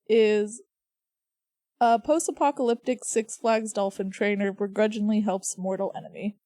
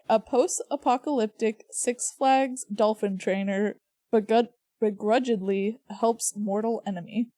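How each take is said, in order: First: It is read very fast. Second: It is read at a slower pace.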